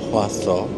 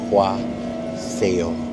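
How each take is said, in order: First: The name is said ending in 'so'. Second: The name is said ending in 'seo'. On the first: This is how the name is really said. The speaker calls it right. "Mali lang yung pronunciation ko. It's uh, Hwaso" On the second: This is the name read from its English spelling. The speaker calls it wrong. "kung babasahin niyo siya in English or Tagalog"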